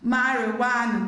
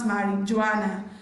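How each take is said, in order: First: The J is silent, with no J sound. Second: A J sound is pronounced in the middle. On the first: The speaker calls it right. "Letter J is silent in the word marijuana" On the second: The speaker calls it wrong. "not marijuana"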